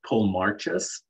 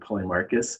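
First: The name is sounded out literally, as spelled. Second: The name is said in its conventional pronunciation. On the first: The speaker calls it wrong. "I phonetically pronounced out the name of Polemarchus" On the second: The speaker calls it right. "rather than Polemarchus"

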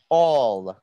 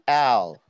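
First: The word sounds like 'awl'. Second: The word sounds like the letter L. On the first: The speaker calls it right. "you have to pronounce this as all" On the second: The speaker calls it wrong. "Not L"

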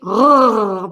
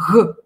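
First: The R is rolled like a growl. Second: The R is soft, breathy and voiceless. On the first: This is the southern provincial way of saying it. "У южных французов она звучит «р», прям рычание какое-то" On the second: This is the Parisian way of saying it. "столичный «эг», парижский ... этот звук глухой"

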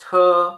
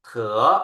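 First: It is said with the first tone. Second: It is said with the second tone. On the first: "เสียงที่ 1" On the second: "เสียงที่ 2"

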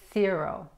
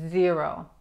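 First: It begins with a hissing s sound. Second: It begins with a buzzing z sound. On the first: The speaker calls it wrong. "no zero" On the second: The speaker calls it right. "es zero"

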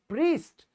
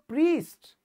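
First: The vowel is a long ee. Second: The same.

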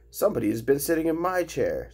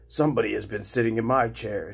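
First: It is said in a medium, middle-sized voice. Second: It is said in a deep, rough voice.

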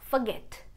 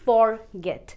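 First: The first syllable is a short reduced 'f'. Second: The first syllable sounds like a full 'for'. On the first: The speaker calls it right. "आप इसको pronounce करेंगे फ" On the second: The speaker calls it wrong. "ये word होना चाहिए forget. पर ऐसा नहीं है"

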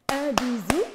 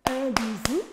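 No difference in how they are said.

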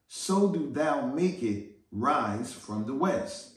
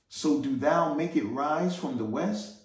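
First: The voice falls at the end like a statement. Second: The voice rises at the end like a question. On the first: It is a challenge, not a question. The speaker calls it right. "but it's not a question mark. Let me read that again" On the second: It sounds like a question. The speaker calls it wrong. "Now I'm reading that with a question mark"

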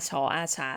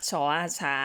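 Both takes have the same delivery.

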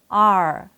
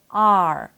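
The two takes are said the same way.

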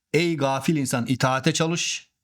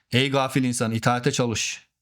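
The two takes are said the same way.

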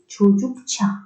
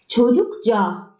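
First: The consonant before the final vowel is ch. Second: The consonant before the final vowel is j. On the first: The speaker calls it right. "C, Ç'ye dönüştü" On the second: The speaker calls it wrong. "değil"

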